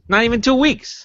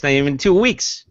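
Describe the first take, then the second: First: High, sing-song mock repeat; a high mocking echo. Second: Said in the usual way. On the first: Real, not acted. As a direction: pitch it way up to mock. Repeated higher as a joke.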